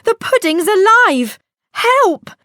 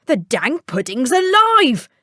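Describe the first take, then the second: First: High, loud alarmed shriek; frightened cry. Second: Spooked tinker. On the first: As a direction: panic at the jumping pudding. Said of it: "she said". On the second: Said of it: "said the tinker". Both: Acted.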